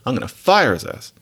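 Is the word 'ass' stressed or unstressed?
unstressed. The word 'ass' is left unstressed. His ass simply means him. The speaker calls it right. "You say"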